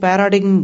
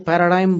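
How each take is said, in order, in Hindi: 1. बीच में 'g' की आवाज़ बोली जाती है। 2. 'g' साइलेंट है और स्वर लंबा होता है। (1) "वो पैराडिग्म बोलते थे" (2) "फॉरेनर्स जो उसका उच्चारण करते हैं"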